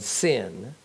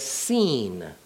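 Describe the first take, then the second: First: The vowel is short, as in 'sin'. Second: The vowel is long, as in 'seen'. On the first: The speaker calls it wrong. "not as Sin, S-I-N" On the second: The speaker calls it right. "rather as Seen, S-E-E-N"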